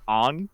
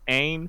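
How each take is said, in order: First: The name is said with the film's vowel. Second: The name is said with its usual vowel.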